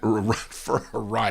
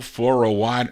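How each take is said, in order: First: The word 'ride' starts with an R sound. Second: The word 'ride' starts with a W sound.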